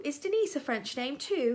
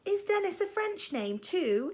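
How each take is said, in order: First: "Denise" with the second syllable stressed; Denise for Dennis. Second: Said in the usual way. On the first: A narrator's reading. Dennis asks about his new name, saying "Denise" French-style. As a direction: say "Denise", not Dennis, ending in a long eez.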